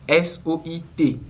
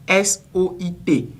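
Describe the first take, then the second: No difference in how they are said.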